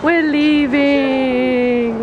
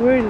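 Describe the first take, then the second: First: Very slow, stretched-out words; drawn-out announcement. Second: Said in the usual way. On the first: Pretend. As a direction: drag out each syllable grandly. Drawn-out announcement, then plain.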